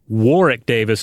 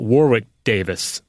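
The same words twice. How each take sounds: First: The middle W of Warwick is silent. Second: The middle W of Warwick is pronounced. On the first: The speaker calls it right. "without stressing that W in the middle" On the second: The speaker calls it wrong. "not Warwick Davis"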